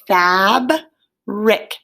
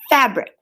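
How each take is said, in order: First: The two syllables are said apart with a break. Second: The two syllables are blended quickly without a break. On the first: "Those syllables, again, are breaking up between two consonants" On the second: "We want to put it together back pretty fast"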